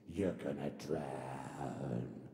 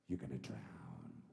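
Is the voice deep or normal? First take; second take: deep; normal. First: It is said in a deep voiceover voice. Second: It is said in a normal voice.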